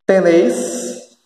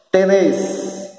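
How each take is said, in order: First: "Tenéis" with an I glide before the S; "Tenéis" drawn out as te-NÉIS; pronounced with I. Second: "Tenéis" said without the I, as te-NÉS; "Tenéis" ending in a plain -és; Argentine pronunciation. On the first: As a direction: say "Tenéis" slowly, ending -éis. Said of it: "com I". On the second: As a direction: stretch the final É in "Tenéis", no I glide. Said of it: "Sem o I". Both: Shown as a demonstration.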